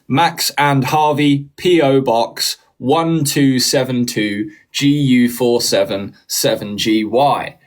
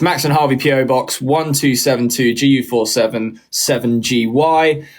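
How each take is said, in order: First: It is read a bit more slowly. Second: It is read at normal speed.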